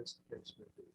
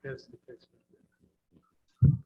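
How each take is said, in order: First: Soft, under the breath; quiet. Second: Drawn out and louder; slow and loud. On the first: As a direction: say it softly, almost to yourself. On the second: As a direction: stretch each word out loud. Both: Real, not acted. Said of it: "I'm sorry, what was the last part?".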